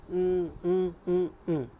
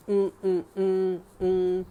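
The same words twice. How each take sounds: The two takes are said the same way.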